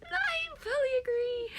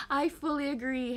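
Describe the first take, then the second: First: High, still laughing. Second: Said in the usual way. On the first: Real, not acted. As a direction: agree through giggles. Laughing agreement.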